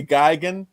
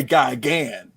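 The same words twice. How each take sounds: First: "Gigan" with a reduced second syllable, GUY-gun; other person's pronunciation. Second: "Gigan" with a full second vowel, guy-GAN; own pronunciation. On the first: Podcaster showing how the guest says it, front-stressed. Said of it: "You say Gigan". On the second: Podcaster contrasting his own way, full final syllable. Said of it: "I say Gigan". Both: Shown as a demonstration.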